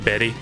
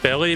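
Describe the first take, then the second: First: The middle consonant is an R sound. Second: The middle consonant is an L sound. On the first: The speaker calls it right. "but it's actually berry" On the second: The speaker calls it wrong. "you would think that would be pronounced as belly"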